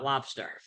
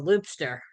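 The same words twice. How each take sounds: First: Said in the usual way. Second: "loobster" with a long oo; first vowel of "loobster" as in "loop"; altered pronunciation. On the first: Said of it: "had the loobster". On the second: Retold or imitated. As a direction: say "loobster", oo in place of the short o. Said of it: "not lobster".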